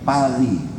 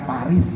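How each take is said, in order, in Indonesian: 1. Paris diucapkan dengan bunyi Prancis. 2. Paris diucapkan dengan bunyi Indonesia biasa. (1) "Paris kaya apa?" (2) "Cara mengucapkannya bukan Paris ya"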